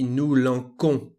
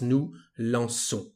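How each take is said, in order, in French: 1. Le c se prononce comme un k dur. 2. Le c se prononce comme un s doux. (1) "Without this c'est dire, the pronunciation uh, would be nous lançons because of the letter O" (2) "we need this c'est dire to have the sound S"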